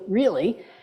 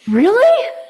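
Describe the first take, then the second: First: It sounds disapproving and judging. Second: It sounds open, amazed and curious. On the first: The speaker disapproves of what happened. The speaker calls it wrong. "like a bird poops on your windshield" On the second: The speaker is curious and open to what happened. The speaker calls it right. "it's sort of like saying, wow"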